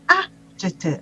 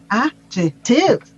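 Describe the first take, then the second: First: The stress is on the first syllable. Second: The stress is on the third syllable. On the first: "this is the pronunciation of the word with the stress on the first syllable" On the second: "the stress on the third syllable"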